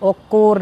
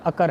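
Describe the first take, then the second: First: The first vowel sounds like 'o'. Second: The first vowel sounds like 'a'. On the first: The speaker calls it wrong. "ये ओकोर नहीं है" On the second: The speaker calls it right. "ये अकर है"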